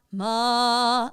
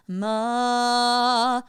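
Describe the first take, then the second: First: Ma sung with a longer, bigger mouth; ma with a bigger mouth shape. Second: Ma sung with a small, wide mouth; Ma with a small mouth shape. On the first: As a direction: open up ma with a tall mouth. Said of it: "a little bit of a bigger mouth". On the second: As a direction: sing Ma narrow and small. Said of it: "small mouth". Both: Shown as a demonstration.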